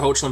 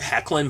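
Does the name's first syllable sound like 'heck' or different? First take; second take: different; heck. First: The first syllable does not sound like 'heck'. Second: The first syllable sounds like 'heck'. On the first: The speaker calls it wrong. "I always say Tyler Hoechlin" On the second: The speaker calls it right. "I think it's pronounced properly Hecklin"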